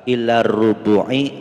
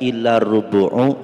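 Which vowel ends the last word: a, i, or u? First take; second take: i; u. First: The last word ends in an i vowel. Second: The last word ends in an u vowel.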